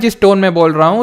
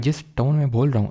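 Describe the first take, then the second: First: It is spoken loudly and forcefully. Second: It is spoken softly and calmly. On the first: "अब मैं तेज बोल रहा हूँ" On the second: "आराम से धीरे धीरे"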